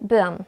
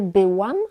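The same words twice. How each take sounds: First: The 'ł' sound is dropped. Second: The 'ł' sound is clearly pronounced. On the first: "ale byłam. ... Kiedy mówimy szybko, często nie czytamy tego ły" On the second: "Nie byłam"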